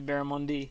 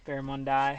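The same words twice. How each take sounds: First: The last syllable ends with an 'ee' sound. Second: The last syllable ends with an 'eye' sound. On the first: "If it ended in Y, I'd say barramundi" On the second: "It ends in I, so I say I"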